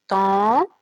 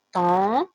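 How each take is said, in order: First: "tente" stretched out slowly, final t sounded; lentement. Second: Said in the usual way. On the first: Shown as a demonstration. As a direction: draw out "tente" for the class. ("tente" étiré lentement, t final prononcé) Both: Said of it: "Et dans la fin du mot, on dit te".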